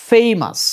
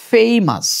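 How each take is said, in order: No difference in how they are said.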